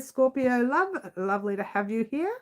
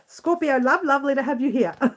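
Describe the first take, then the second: First: The phrase is spoken at a normal pace. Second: The phrase is spoken quickly.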